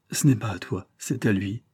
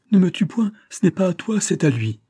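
First: Repeated in fear. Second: High, loud, frantic plea for her life; a woman cries out in terror to spare her life; terrified cry. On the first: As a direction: say it again, hollow with fear. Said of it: "folle de peur ... répéta". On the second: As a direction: scream it out, begging him to stop. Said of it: "elle lui cria". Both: A narrator's reading.

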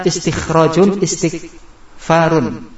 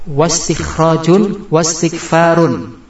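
First: Istikhrajun, istighfarun each opening on a clear I; hamzah pronounced. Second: Slow wastikhrajun, wastighfarun, WA joined straight to S; hamzah wasal dropped. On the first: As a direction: sound the initial IS in istikhrajun, istighfarun, no wawu. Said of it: "Kalau wawunya dibuang, kita baca". (istikhrajun, istighfarun dibaca dengan i jelas di awal) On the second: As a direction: draw out wastikhrajun, wastighfarun with no I after wawu. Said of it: "Kalau kita kasih wawu". (wastikhrajun, wastighfarun pelan, wa langsung disambung ke sin) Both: Shown as a demonstration.

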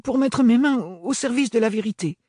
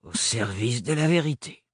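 First: Higher, earnest answer, stress on mains; earnest young woman. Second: Cavernous repeat. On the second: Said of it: "répéta Hélène". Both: Acted.

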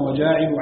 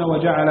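First: وجاعل as "wa-jaa'ilu", long first a; faa'il pattern. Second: وجعل as "wa-ja'ala", short vowels throughout; fa'ala pattern. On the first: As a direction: stretch the alif in وجاعل, then short i. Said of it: "على وزن فاعل". (وجاعل بألف ممدودة على وزن فاعل) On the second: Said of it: "على وزن فعل". (وجعل بفتحات قصيرة على وزن فعل) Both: Shown as a demonstration.

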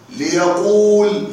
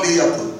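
First: "ليقول" stretched slowly as li-ya-quuul; long-vowel form. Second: "ليقل" as li-ya-qul, short and lower; shortened form. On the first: Teacher showing the step after moving the vowel, long u held. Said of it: "فصار هكذا، بهذه الطريقة". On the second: Teacher giving the result once waw is dropped, short vowel. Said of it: "فحذفت الواو للتخلص من التقاء الساكنين فصار". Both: Shown as a demonstration.

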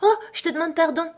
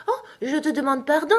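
First: Put-on high, startled girlish apology; cried-out apology. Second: Put-on high, hasty little-girl cry of apology; cried-out apology. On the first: Alice realises she offended the mouse, high cried apology. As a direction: catch yourself and exclaim it high. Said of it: "s'écria de nouveau Alice". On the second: Alice fears she has hurt the mouse, high cried apology. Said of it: "s'écria Alice". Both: A narrator's reading.

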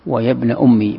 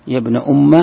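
First: "أمي" ending in an "-i" sound; kasra on the mim. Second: "أم" ending in an "-a" sound; fatha on the mim. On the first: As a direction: say "أمي" as ummi, with an i after the doubled m. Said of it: "بالكسر". (كسر الميم في «أمي») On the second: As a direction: say "أم" as umma, with an a after the doubled m. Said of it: "بالفتح". (فتح الميم في «أم») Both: Shown as a demonstration.

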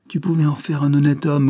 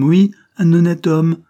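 First: Raised, pleading reproach; reproachful. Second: Oui, un honnête homme shouted louder and higher; shouting. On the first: Convict reproaching his mistress, raised voice. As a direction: blame her for what he became. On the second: Convict repeating his reproach, near shout. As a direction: hammer home un honnête homme at full volume. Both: Acted.

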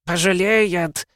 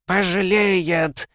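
First: High, slow shrill screech; shrill screeching bird woman. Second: Slow, high piercing bird shriek; shrill screeching bird woman. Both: Acted. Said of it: "пронзительно заверещал Ветрогон". (пронзительный птичий визг)

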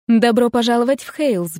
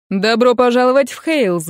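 First: Lilting, otherworldly welcome; lightly sung, almost unearthly greeting; sing-song ethereal voice. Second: Loud hearty welcome; exclaiming. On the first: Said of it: "приветствовала она певучим, почти неземным голосом". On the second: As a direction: call out the welcome warmly. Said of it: "воскликнул Патрик". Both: A narrator's reading.

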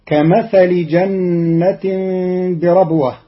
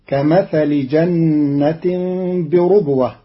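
First: Said in the usual way. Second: بربوة said "bi-rubwah", u after the r; damma on raa. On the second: Shown as a demonstration. Teacher shows Qalun's reading, بربوة with damma on raa. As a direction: round the r of بربوة into "ru", not "ra". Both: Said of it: "بضم الراء".

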